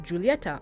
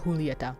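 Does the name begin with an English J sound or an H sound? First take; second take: J sound; H sound. First: The name begins with an English J sound. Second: The name begins with an H sound.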